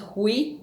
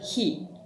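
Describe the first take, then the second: First: The vowel glides from 'u' into 'i'. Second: The vowel is a plain 'ee' sound. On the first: The speaker calls it wrong. "So this is not hui" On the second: The speaker calls it right. "with another consonant that isn't ang, you pronounce it like e"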